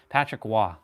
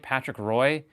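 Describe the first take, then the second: First: The surname begins with a W-like sound. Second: The surname begins with an English R sound. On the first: The speaker calls it right. "That's how French people say Roy" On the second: The speaker calls it wrong. "If you say Patrick Roy, he'll like slap you silly"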